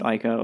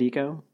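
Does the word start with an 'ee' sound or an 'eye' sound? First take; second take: eye; ee. First: The word begins with an 'eye' vowel. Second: The word begins with an 'ee' vowel. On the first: The speaker calls it wrong. "I know some people pronounce it Ico, and I think those people are incorrect" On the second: The speaker calls it right. "do you pronounce it Eco?"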